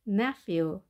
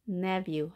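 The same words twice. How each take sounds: First: The middle consonant is an f sound. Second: The middle consonant is a v sound. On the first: "ph 발음은 f였던 거" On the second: "f보다 더 약하게 v로 바뀌는 거죠"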